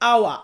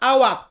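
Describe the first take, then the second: First: The word ends without any k sound. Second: The word ends with a clear k sound. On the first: The speaker calls it right. "উচ্চারণটা হবে আওয়া" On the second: The speaker calls it wrong. "এটা বললে ভুল হবে"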